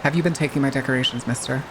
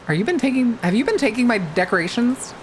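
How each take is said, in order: First: Low, quick mock interrogation; mock stern scolding. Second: Higher-pitched mock interrogation; mock accusation. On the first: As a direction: drop the pitch and playfully scold. Repeats the accusation as mock scolding. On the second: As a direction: playfully accuse them in a raised pitch. Mock questioning about missing decorations.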